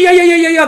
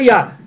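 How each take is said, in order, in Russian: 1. Слово повторяется с заиканием. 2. Слово сказано один раз, чётко. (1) "Не говори я-я-я-я-я" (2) "говори просто я"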